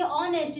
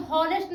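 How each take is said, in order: First: ऑनेस्ट starting straight on the vowel, no h; silent h. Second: हॉनेस्ट with a clear h sound at the start; wrong h pronounced. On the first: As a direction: say ऑनेस्ट as o-nest, dropping the h. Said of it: "इसको बोलेंगे ऑनेस्ट". (ऑनेस्ट में ह silent, सीधे ऑ से बोलें) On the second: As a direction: say हॉनेस्ट as ho-nest, voicing the h. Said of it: "इसको बोलेंगे हॉनेस्ट नहीं". (हॉनेस्ट को ह की आवाज़ के साथ बोलें) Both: Shown as a demonstration.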